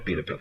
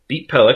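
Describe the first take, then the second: First: An extra 'a' vowel comes between the two parts. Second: The two parts join with no extra vowel. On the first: The speaker calls it wrong. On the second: The speaker calls it right.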